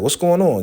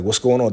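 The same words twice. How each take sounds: First: A much higher mocking echo of the question. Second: Said in the usual way. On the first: [name] throwing her daughter's question back at her, high mock echo.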